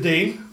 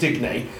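First: The name is said with one syllable. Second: The name is said with two syllables. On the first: The speaker calls it wrong. "Dean is how the commentator kept on saying" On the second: The speaker calls it right. "I'd say Digney"

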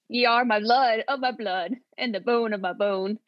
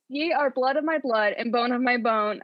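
First: It is said in a Scottish accent. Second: It is said in the speaker's normal accent.

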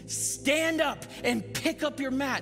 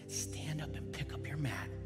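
First: The words are said loudly and forcefully. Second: The words are said softly and gently. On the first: It is a commanding call meant to inspire. "Did he yell in such a way that would inspire" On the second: It is a gentle, encouraging nudge. "Did he whisper it?"

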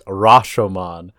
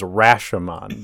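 First: The name is said with a non-American pronunciation. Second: The name is said with an American pronunciation. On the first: The speaker calls it right. "The proper pronunciation is" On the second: The speaker calls it wrong. "The American pronunciation is"

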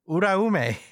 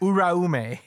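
First: The R is rolled. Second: The R is said as a plain English R. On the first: The speaker calls it right. "like roll the R" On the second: The speaker calls it wrong.

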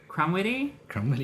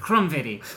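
First: The name is said with a plain English accent. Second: The name is said with a German-sounding accent. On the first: The speaker calls it right. "the first one I did was right" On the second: The speaker calls it wrong. "I like to put some German into it"

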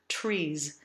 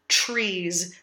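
First: A clear t is followed by a soft, open r. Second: The tr sounds like a ch sound. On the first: The speaker calls it right. "we use a phonetic T and the bird R sound" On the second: The speaker calls it wrong. "Nor do we want to do the colloquial CH sound"

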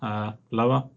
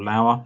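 First: The name sounds like the word meaning less high. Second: The name is said with a different vowel sound. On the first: It plays on the word lower as a joke. The speaker calls it wrong. "I'm going to go to lower with Justin Lower" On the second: It is how the player's name is really said. The speaker calls it right. "or Lower, as he's actually called"

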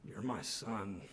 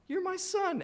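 First: It is said grudgingly, with a scowl. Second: It is said happily, with warmth.

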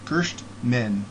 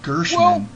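First: The name is said with a T sound. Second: The name is said without a T sound. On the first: The speaker calls it right. "I guess it's Gershman" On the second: The speaker calls it wrong. "I make the T silent"

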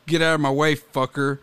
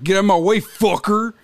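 First: It is said in a plain, neutral voice. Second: It is said in a Mexican Cholo accent.

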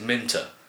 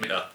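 First: The middle t is pronounced as a clear t. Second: The middle t is replaced by a glottal stop. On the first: The speaker calls it wrong. "If you pronounce it Minter, I got really annoyed" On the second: The speaker calls it right. "you had to do the glottal stop"

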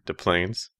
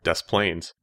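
First: The s at the end of Des is silent. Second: The s at the end of Des is sounded. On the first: "like Tattoo and Fantasy Island" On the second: "I want to say it like Des Plaines"

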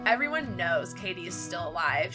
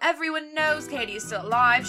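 First: It is read in the speaker's plain accent. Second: It is read in a British accent.

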